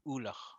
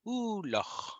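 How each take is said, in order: First: The first vowel is said plainly without emphasis. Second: The first vowel is strongly emphasized and prominent. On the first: "Versus this would be just ulach" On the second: "It's where you overemphasize the oo or o"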